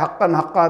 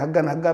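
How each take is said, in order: First: The doubled consonant is a deep k sound. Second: The doubled consonant is a hard g sound. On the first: "दुआ में आ रहा है हक्कन हक्का" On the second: "वहाँ के लोग काफ नहीं बोल पाते, गाफ बोलते हैं"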